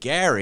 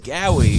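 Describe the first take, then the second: First: The r is said as a clear r. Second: The r is replaced by a w-like sound. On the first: This is the name as it is normally said. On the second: This imitates how the man himself said it.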